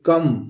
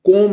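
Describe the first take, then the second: First: The vowel is a short 'uh' sound. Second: The vowel is a long 'oh' sound. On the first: The speaker calls it right. "इसको पढ़ेंगे कम" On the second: The speaker calls it wrong. "हम इसको कोम नहीं पढ़ेंगे"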